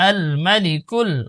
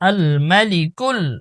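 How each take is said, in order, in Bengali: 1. 'm'-এর পরের স্বরটি হ্রস্ব রাখা হয়। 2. 'm'-এর পরের স্বরটি হ্রস্ব রাখা হয়।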